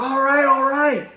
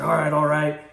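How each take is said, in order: First: Beaten man giving up. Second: Said in the usual way. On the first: Retold or imitated. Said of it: "He's like". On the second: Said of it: "he's like".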